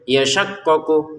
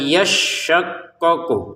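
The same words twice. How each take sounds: First: The sh sound is short, not held. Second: The sh sound is held and pressed. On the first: The speaker calls it wrong. "Jangan kita bacanya yashaqqaqu" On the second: The speaker calls it right. "shinnya kan harus ditekan"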